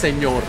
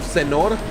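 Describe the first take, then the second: First: The middle consonant is an ny sound. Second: The middle consonant is a plain n sound. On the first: The speaker calls it right. "it's señor" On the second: The speaker calls it wrong. "Instead of senor"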